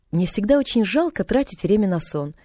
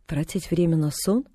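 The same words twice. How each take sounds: First: Said in the usual way. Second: Mild puzzled echo of тратить время на сон, rising on сон; bewildered question. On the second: A narrator's reading. The invalid echoing the girl, mildly puzzled. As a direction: repeat it in disbelief. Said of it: "в полном недоумении переспросила".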